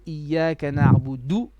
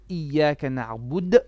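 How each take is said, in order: First: The last word ends with a short vowel. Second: The last word ends on a bare consonant. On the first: The speaker calls it wrong. "you cannot say Iyaka na'budu" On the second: The speaker calls it right. "You would have to say Iyaka na'bud"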